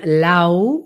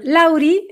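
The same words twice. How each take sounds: First: "Lau" low and drawn inside; low, inward "Lau"; voice going inward. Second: "Lauri" lifted high; high diminutive "Lauri"; voice going up. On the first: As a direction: sink LAU slowly inward. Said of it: "que va más hacia adentro". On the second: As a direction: send LAURI up in pitch. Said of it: "la voz se le va para arriba". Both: Shown as a demonstration.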